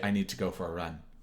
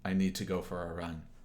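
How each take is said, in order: The two takes are said the same way.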